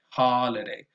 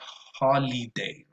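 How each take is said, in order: First: The middle vowel is a relaxed schwa. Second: The middle vowel is a tense e. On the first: The speaker calls it right. "but with a schwa" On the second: The speaker calls it wrong. "probably not holiday, Not with a tense e"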